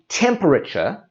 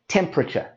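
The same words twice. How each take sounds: First: The extra middle sound is pronounced. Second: The extra middle sound is dropped. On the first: The speaker calls it wrong. "instead of saying temperature" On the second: The speaker calls it right. "we say temperature, and we drop out that sound"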